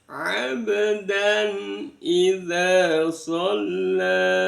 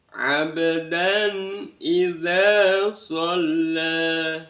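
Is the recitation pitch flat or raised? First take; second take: raised; flat. First: It is recited at a raised pitch. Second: It is recited at a flat pitch.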